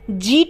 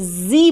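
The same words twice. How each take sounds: First: The word starts with a j sound. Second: The word starts with a z sound. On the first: The speaker calls it wrong. "इसे जी TV नहीं बोलते" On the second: The speaker calls it right. "जी बोलते हैं"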